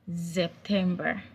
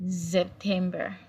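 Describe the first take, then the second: The two takes are said the same way.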